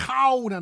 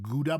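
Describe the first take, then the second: First: High, loud Gouda as "khow-da"; throaty g and ow in Gouda; correct Dutch pronunciation. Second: Gouda as "goo-da"; hard g and oo in Gouda; anglicized Gouda; wrong English pronunciation. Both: Shown as a demonstration. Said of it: "not Gouda".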